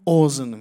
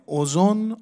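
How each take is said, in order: First: اذن with no vowel between z and n; second vowel dropped. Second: اذن with a second "o" before the final n; two-vowel form. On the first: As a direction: say اذن as "ozn", one syllable. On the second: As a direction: say اذن as "o-zon", damma on both syllables. دو تا ضمه پشت سر هم. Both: Shown as a demonstration.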